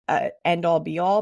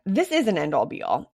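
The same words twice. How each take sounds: First: Said in the usual way. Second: "is" punched, falling firmly; stress on IS. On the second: Shown as a demonstration. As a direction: insist on "is" in "This is an end all be all". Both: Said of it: "actually, I have to take that back".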